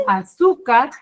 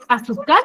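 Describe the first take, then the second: First: Azúcar said as aZÚcar, SU punched; stress on middle syllable. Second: Azúcar said as azuCÁR, last syllable pushed up; stress on last syllable. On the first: Teacher testing where azúcar's stress falls, stress on SU. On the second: Teacher testing where azúcar's stress falls, stress on CAR. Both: Shown as a demonstration. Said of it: "juegue con la tonalidad".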